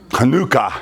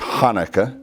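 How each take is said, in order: First: It is said with a Hebrew pronunciation. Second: It is said with an American English pronunciation. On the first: "is more proper pronunciation of it" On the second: "our Americanized version of it"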